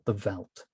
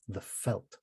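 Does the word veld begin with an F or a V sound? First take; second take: V; F. First: The word begins with a V sound. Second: The word begins with an F sound.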